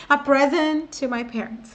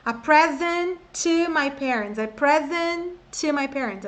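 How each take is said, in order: First: Said in the usual way. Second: "present to" slowed, with one shared t; exaggerated teaching intonation. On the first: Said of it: "mas você não vai falar". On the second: Shown as a demonstration. Teacher helps learners catch the sound, "present to" exaggerated and slow. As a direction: stretch "present", then land on the t of "to". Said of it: "Eu tô fazendo essa entonação só pra você pegar o som".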